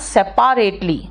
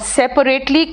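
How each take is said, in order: First: The second syllable is a clear, full 'pa'. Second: The second syllable is a weak, reduced vowel.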